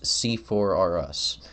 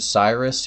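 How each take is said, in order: First: The name is said in four syllables. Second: The name is said in two syllables. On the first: The speaker calls it right. "like Toys R Us" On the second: The speaker calls it wrong. "you're pronouncing it wrong"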